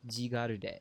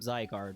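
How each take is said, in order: First: It is said with Japanese sounds, four syllables. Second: It is said with English sounds, two syllables. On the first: "in Japanese, it has the same name, but they pronounce it differently" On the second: "I would pronounce that Pokemon's name Zygarde"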